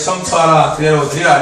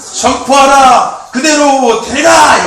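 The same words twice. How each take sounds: First: It is said in a flat, dull way. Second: It is said as a passionate, energetic shout.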